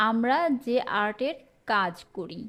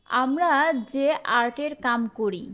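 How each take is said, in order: First: Standard কাজ with a clear final "j"; standard form. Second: Regional কাম in place of কাজ; regional dialect. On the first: Teacher gives the standard version of the sentence, standard pronunciation. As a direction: say কাজ in careful standard Bengali. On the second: Teacher reads out a regional sentence, dialect pronunciation. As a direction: say কাম with a final "m", dialect style. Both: Shown as a demonstration. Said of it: "এটার প্রমিত রূপ কি হবে?".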